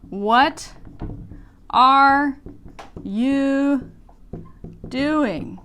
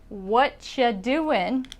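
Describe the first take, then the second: First: The word 'are' is clearly pronounced. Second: The word 'are' is dropped entirely. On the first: "actually is" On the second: "this is not written English, spoken English"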